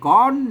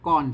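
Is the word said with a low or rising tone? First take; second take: rising; low. First: The word is said with a rising tone. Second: The word is said with a low tone. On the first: "ไต้ลื้อกับไต้หยองเพิ่นออกเสียงจัตวา" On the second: "ก่อนเสียงเอก"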